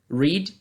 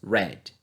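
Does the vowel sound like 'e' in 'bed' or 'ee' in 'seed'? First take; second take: ee; e. First: The vowel is a long 'ee' sound. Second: The vowel is a short 'e' sound. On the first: This is the present-tense form. "ao invés de pronunciarmos read" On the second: This is the past-tense form. "pronunciamos read"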